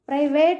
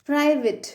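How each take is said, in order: First: The last syllable has an 'ay' vowel. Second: The last syllable has an 'ih' vowel. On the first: The speaker calls it wrong. "Private అంటాం మనం" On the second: The speaker calls it right. "ఏం పలకాలి?"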